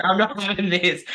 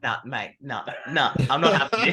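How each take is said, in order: First: Louder, higher, punching not with a falling close; laughing mock outburst. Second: Building from muttered to loud, rising on having; a heated player refusing to back down; mock fiery outburst. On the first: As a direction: repeat the refusal through a laugh, firm. Repeats the court outburst laughing. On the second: Aggressive on the tennis court.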